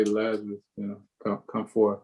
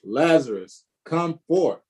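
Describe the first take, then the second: First: Lazarus said soft and limp, much quieter; a feeble half-hearted summons; mock timid call. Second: Calling Lazarus out, forth rising high; a commanding call into the tomb; loud cry. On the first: Pastor mocking a weak way Jesus might have called, soft and meek. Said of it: "did he just, like, say". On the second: Acted. Pastor reading Jesus calling Lazarus from the grave, loud commanding cry. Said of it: "he cried with a loud voice".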